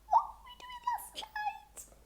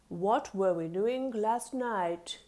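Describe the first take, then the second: First: It is said in a high squeaky voice. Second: It is said in a low deep voice.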